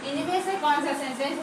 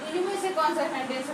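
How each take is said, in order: Both takes have the same delivery.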